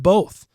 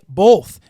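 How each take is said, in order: First: It is said with no L sound before th. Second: It is said with an L sound before th. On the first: The speaker calls it right. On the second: The speaker calls it wrong.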